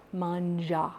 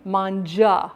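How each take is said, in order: First: "Manja" said softer, with zh sound. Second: Firmer "Manja" with zh. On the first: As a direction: say "Manja" quietly, zh. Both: Shown as a demonstration. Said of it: "Ja, not ja".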